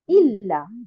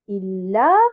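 First: The stress falls on the first syllable. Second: The stress falls on the second syllable. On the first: The speaker calls it wrong. "et non pas illa" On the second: The speaker calls it right. "un nabr, on va le positionner à quel niveau? Sur harakat al-lam"

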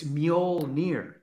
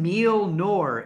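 First: The word ends with a sound like 'near'. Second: The last vowels are swapped, without a 'near' ending. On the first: The speaker calls it right. "It's Mjolnir" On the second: The speaker calls it wrong. "You're replacing the I and the O. You're saying Mjolnir"

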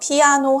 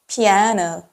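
First: It is said with Korean loanword pronunciation. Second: It is said with English pronunciation. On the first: The speaker calls it wrong. "영어로는요, 피아노 하지 않고요" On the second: The speaker calls it right. "피아노 이렇게 발음합니다"

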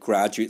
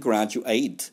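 First: The last syllable sounds like 'it'. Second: The last syllable sounds like 'eight'. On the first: It is used as a noun or adjective. "형용사나 명사가 되면은 graduate라고 발음하죠" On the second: It is used as a verb. "졸업하다가 되면 graduate"

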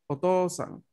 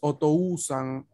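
First: The o is simply held long, with no u. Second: A separate u sound follows the o. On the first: The speaker calls it right. "no se pronuncia como U, se pronuncia como otra O" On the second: The speaker calls it wrong. "No decimos Otousan"

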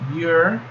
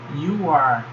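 First: It is said as one contracted syllable. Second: It is said as two full words. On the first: "forma contraída" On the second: "forma não contraída"

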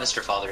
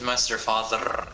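First: The R sounds are plain, not rolled. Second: The R sounds are strongly rolled. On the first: The speaker calls it wrong. "it's not Mister Father" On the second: The speaker calls it right. "Gotta roll the R"

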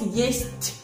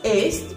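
First: The word starts with a y glide before e. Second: The word starts directly with the vowel e. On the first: The speaker calls it right. "La letra es ye, por eso decimos yest" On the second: The speaker calls it wrong. "no es est"

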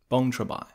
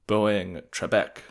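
First: The name is said with a local Khmer pronunciation. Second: The name is said as an English reading. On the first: This is how a local says the name. "that was how the helpful taxi driver at the airport pronounced it" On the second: This is a foreigner's reading of the spelling. "my attempts of reading it in English"

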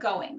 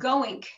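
First: The word ends with a plain ng sound. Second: The word ends with a k sound. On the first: It is the general American way. "instead of going" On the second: It marks the speaker as part of the community. "distinctive pronunciation of English sounds, like saying goink"

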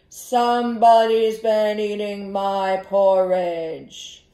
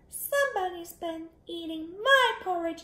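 First: It is said in a big, deep voice. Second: It is said in a tiny, small voice. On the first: The largest bear is speaking. "the big voice?" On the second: The smallest bear is speaking. "in his wee little voice"

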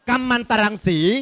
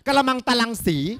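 First: The first syllable is said as 'kam'. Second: The first syllable is said as 'kra'. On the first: The speaker calls it right. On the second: The speaker calls it wrong.

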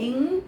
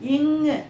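First: The consonant ends bare with no added vowel. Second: The consonant ends with an added u vowel. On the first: "ஆனால் நாம் எப்படி படிக்கணும் அப்படின்னா" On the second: "அதோட ஊ சேர்த்து சேர்த்து கற்றுக் கொடுப்பாங்க"

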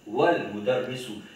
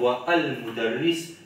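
First: The vowel of al is dropped, joining wa to l. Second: The vowel of al is sounded separately after wa. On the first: The speaker calls it right. "mais nous pour dire wal mudarrisu" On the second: The speaker calls it wrong. "Nous pas pour dire wa al mudarris"

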